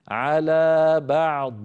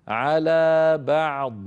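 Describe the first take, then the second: The two takes are said the same way.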